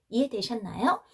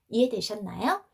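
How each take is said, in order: Both takes have the same delivery.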